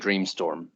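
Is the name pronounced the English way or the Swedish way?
English. The name is pronounced the English way. "I'm not Swedish, and I came up with it because it sounds cool to say Dreamstorm"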